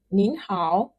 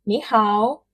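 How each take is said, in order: First: "nin hao" with a rising "nin" and a clear "n"; polite "nin hao" for the boss; formal greeting. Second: "ni hao" slowly, no final "n" on "ni"; plain "ni hao" for friends; informal greeting. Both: Shown as a demonstration.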